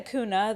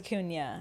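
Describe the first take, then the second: First: The middle consonant is a plain n sound. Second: The middle consonant is an ny sound. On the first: This is how people commonly say it. The speaker calls it wrong. "People say Acuna though" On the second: This is the real pronunciation of the name. The speaker calls it right. "but it's Acuna because it has that little what's it called? An Enya"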